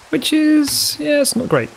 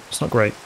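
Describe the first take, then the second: First: Squeaky dismay. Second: Said in the usual way. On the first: Real, not acted. Builder with one torch left, squeaky mock dismay. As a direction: pitch jumps way higher in mock dismay.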